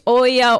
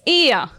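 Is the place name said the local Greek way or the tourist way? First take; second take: tourist; local Greek. First: The name is said with the tourist pronunciation. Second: The name is said with the local Greek pronunciation. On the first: This is how visitors say the name. "many people they say, where is Oya" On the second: This is how locals say the name. "the Greek name is Ia"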